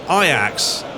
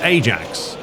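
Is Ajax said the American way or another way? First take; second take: other way; American. First: Ajax is said the non-American way. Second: Ajax is said the American way.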